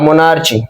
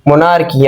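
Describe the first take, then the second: First: The middle consonant is a ch sound. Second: The middle consonant is a hard k sound. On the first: "और मोनार्ची भी होती है" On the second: "इस word की pronunciation जो है वो मोनार्की भी होती है"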